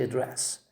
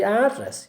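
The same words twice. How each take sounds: First: "address" stressed on DRESS; softer "address" with weight on DRESS; second-syllable stress. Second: "address" stressed on AD; high, strong AD in "address"; first-syllable stress. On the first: Teacher repeats the verb form, stressing DRESS in "address". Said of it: "you say address". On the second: Teacher repeats what not to say, stressing AD in "address". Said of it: "You don't say address". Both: Shown as a demonstration.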